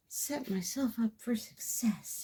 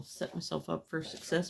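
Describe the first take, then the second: First: High, slow, whispery echo; whispery self-reminder. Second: Said in the usual way. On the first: Real, not acted. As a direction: repeat it softly to yourself, drawn out. Echoes own phrase to herself.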